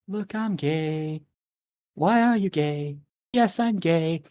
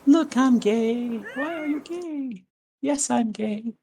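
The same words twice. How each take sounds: First: It is said in a normal voice. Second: It is said in a put-on cat voice.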